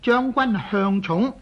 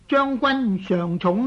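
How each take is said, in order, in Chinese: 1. 第一个音节读作向。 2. 第一个音节读作上。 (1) "这个读音读做向呢是有欠正确的" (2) "在姓氏上来讲呢就要读做上"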